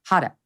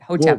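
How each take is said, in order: First: The first syllable sounds like the word hot. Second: The first syllable does not sound like hot. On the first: The speaker calls it wrong. "at first I thought it was Hotep. Like hot, no, not it" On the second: The speaker calls it right. "It took me a while to pronounce it correctly"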